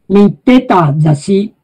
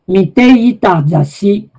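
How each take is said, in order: First: The contracted form drops the "i" sound. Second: The full form with "ita" is pronounced.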